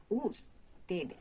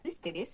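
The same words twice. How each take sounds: First: "ustedes" drawn out slowly, starting oo; Spanish u. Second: "ustedes" starting with ü; French u, wrong. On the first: Teacher showing the correct way, slow oo in "ustedes". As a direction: say "ustedes" slowly as "ous-te-des". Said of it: "c'est ustedes". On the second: Teacher showing what to avoid, "ustedes" with ü. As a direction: say "ustedes" as "üstedes". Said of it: "c'est pas ustedes". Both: Shown as a demonstration.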